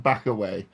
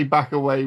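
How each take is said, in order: First: With a head toss. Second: Said in the usual way. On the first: Shown as a demonstration. A player demonstrating the Cornish back away with a head toss. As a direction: back away with a flick of the head, dropping low. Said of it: "with a head toss. You gotta be like". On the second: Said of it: "you can only say "back away" with a head toss".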